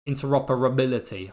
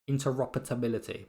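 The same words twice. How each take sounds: First: No extra t sound is inserted in the word. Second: An extra t sound is inserted in the word. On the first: The speaker calls it right. "apparently it's interoperability" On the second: The speaker calls it wrong. "I always put a t in it"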